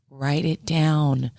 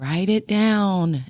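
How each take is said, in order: First: Very slow, spelled-out urging; slow insistent. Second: Slow insistent repeat. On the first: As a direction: drag each word out to insist. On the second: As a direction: repeat it slowly and firmly. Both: Retold or imitated. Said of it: "we always kept saying".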